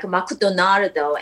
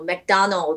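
First: It is said with an r sound and added vowel. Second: It is said with standard English sounds. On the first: "I started pronouncing that, you know, McDonald is like McDonardo" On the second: "McDonald is like"

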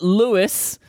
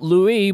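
First: The final s sound is heard. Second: The final s sound is silent. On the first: This is how people actually say the name. "we call it Louis" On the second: This follows the written spelling. "It's spelt Louis"

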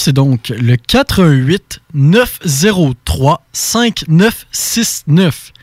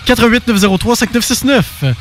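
First: The number is said slowly. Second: The number is said fast.

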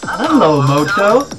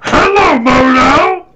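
First: It imitates the Motorola ad voice. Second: It imitates Yoda's voice.

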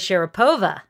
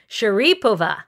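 First: The stress is on the third syllable. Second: The stress is on the second syllable. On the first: This is the familiar way the name is said. "when you're used to Sharapova" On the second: This is how names were said for players from Uzbekistan. "the emphasis was before"

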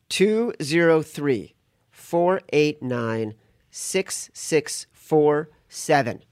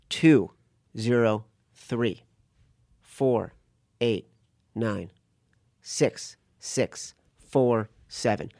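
First: The number is read at normal speed. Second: The number is read slowly.

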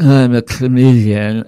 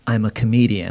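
First: It is said slurred, like after anesthesia. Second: It is said clearly, without slurring.

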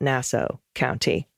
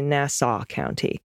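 First: The second syllable sounds like 'ow'. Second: The second syllable sounds like 'saw'. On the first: The speaker calls it wrong. "like the sound George would make stepping on rakes" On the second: The speaker calls it right. "like the tool that cuts through wood"

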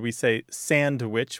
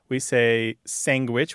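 First: It has a clear d and ends in witch. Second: It has a g sound after the n. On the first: "which is standard" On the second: "which you point out"

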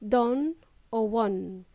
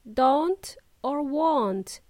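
First: The final T sound is dropped. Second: The final T sound is pronounced. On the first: The speaker calls it wrong. "Not don or won" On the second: The speaker calls it right. "make sure you pronounce the last letter T"

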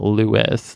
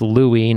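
First: The name ends with a sounded s. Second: The name ends in a vowel, s silent. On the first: The speaker calls it wrong. "not Louis" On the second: The speaker calls it right. "it's Louis"

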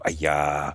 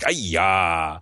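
First: It is said quietly. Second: It is said louder.

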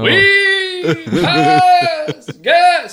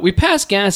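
First: It is said in a put-on booming voice. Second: It is said in a natural speaking voice.

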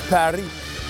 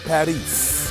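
First: The word ends without an S sound. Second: The word ends with an S sound. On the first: The speaker calls it right. "No S on the end" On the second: The speaker calls it wrong. "not Paris"

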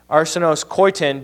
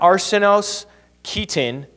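First: The phrase is pronounced in an English style. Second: The phrase is pronounced in a Greek style.

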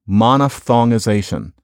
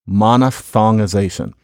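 Both takes have the same delivery.

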